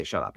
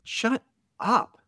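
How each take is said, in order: First: Said in the usual way. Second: A high, hammed-up "Shut up"; mock boss brush-off. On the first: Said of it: "he doesn't say". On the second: Boss waving off the editor's excuses, high mock snap. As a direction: jokingly play the boss cutting him off, pitched up high.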